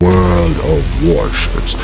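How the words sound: It is said in a deep, epic trailer voice.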